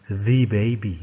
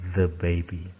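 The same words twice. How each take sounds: First: The article is said with a long 'thee' sound. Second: The article is said with a short 'thuh' sound. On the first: The speaker calls it wrong. "Jadi bukan the baby, no" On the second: The speaker calls it right. "but the baby"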